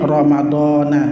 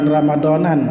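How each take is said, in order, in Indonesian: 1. Kata itu berakhir pada vokal terbuka. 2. Kata itu berakhir dengan bunyi n tambahan. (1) "tapi Ramadana" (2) "bukan Ramadanan"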